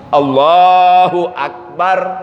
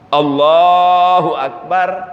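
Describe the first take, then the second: The two takes are said the same way.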